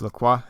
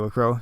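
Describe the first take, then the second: First: The name is said the French way. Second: The name is said the American way.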